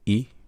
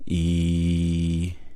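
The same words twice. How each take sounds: First: The vowel is short. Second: The vowel is held longer. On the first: "without the elongation" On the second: "with the elongation"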